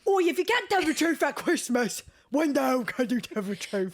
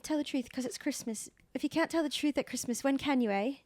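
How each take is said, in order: First: Hammed-up British accent, high-pitched; over-the-top mock British accent; exaggerated British accent. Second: Badly faked British accent, pitched a bit up; lightly put-on, unconvincing British accent. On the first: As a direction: parody the film quote in a broad British accent. Parodies the badly accented film quote. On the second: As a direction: attempt a film quote in a bad British accent. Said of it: "Bad accent".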